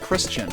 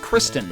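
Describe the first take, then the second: First: The second syllable sounds like 'chun'. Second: The second syllable sounds like 'ten'. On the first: The speaker calls it wrong. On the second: The speaker calls it right. "it's Kristen"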